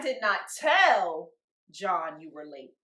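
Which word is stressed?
tell. The stress is on the word tell.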